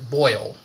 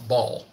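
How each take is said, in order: First: The word has an 'oy' vowel, like 'boil'. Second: The word has an 'aw' vowel, like 'ball'. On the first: "I don't say the word boil" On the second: "I say ball. B O L L"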